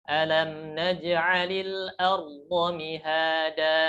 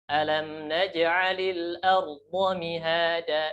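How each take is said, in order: Both takes have the same delivery.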